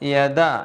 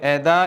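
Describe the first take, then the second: First: It starts with a clear y sound. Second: It starts with a glottal catch, like eda. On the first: The speaker calls it right. "യാ ആയിട്ട് തന്നെ കേൾക്കുകയും വേണം" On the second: The speaker calls it wrong. "ഒരു ഹംസിൻ്റെ ശബ്ദമായി"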